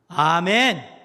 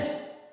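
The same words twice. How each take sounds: First: It is said loudly and strongly. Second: It is said quietly and weakly.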